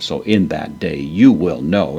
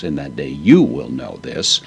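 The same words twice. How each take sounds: First: Said in the usual way. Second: "you" lifted and leaned on; stress on YOU. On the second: Shown as a demonstration. Teacher shows the Greek emphasis to students, stressing "you". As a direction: press the word "you" to mark it as emphatic. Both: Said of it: "humes added for emphasis".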